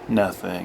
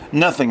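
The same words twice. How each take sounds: First: It is said in a softer voice. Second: It is snapped out sharply.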